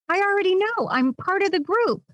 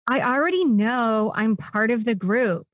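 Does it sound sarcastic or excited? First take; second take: excited; sarcastic. First: It is said in an excited tone. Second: It is said in a sarcastic tone.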